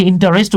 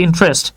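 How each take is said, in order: First: ইন্টারেস্ট said with a full vowel between n and t, in-ta-rest; common wrong pronunciation. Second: ইন্টারেস্ট said with no vowel after n, in-trest; correct pronunciation. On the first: Teacher showing students the usual wrong way to say ইন্টারেস্ট, in-ta-rest. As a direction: stretch ইন্টারেস্ট into four beats, in-ta-rest. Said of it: "আমরা অনেকে ইন্টারেস্ট উচ্চারণ করি". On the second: Teacher giving students the correct ইন্টারেস্ট, in-trest. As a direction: clip ইন্টারেস্ট to in-trest, n sliding straight into tr. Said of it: "উচ্চারণ হচ্ছে ইন্টারেস্ট".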